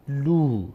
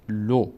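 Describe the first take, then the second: First: لو with long oo, "luu"; long vowel. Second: لو with short o, "lo"; short vowel. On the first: Teacher says lam with vav, long "luu". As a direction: stretch لو into "luu". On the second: Teacher says lam without vav, short "lo". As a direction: keep لو a brief "lo". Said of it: "اگر لام بعدش واو نمی بود". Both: Shown as a demonstration.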